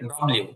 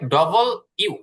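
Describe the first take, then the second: First: The name is squeezed into fewer syllables. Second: The name is said fully as double u. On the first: The speaker calls it wrong. "আমরা বলি ডব্লিউ" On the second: The speaker calls it right. "এটা হবে ডবল ইউ"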